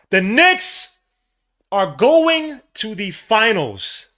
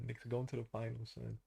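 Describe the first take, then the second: First: Ecstatic shout. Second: Stunned whisper-quiet. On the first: Knicks clinch the finals. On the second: Dazed disbelief before the win. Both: Real, not acted.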